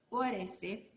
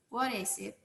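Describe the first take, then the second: First: The words run together quickly and smoothly. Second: The words run together quickly and smoothly.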